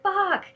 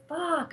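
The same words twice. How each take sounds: First: Much higher, louder furious swear; loud angry curse in the demo. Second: A higher, mock exasperated swear; retold, half-voiced anger; pissed-off curse. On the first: Shown as a demonstration. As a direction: spit it out in full anger. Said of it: "And I'm angry". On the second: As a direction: curse under the breath. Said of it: "I was so pissed".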